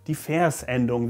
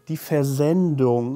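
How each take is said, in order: First: The s closes the first part: Vers, then endung. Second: The s opens the second part: ver, then sendung. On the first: It means the end of a verse. The speaker calls it wrong. "the end of a verse" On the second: It means the dispatching of something. The speaker calls it right. "It's the dispatching"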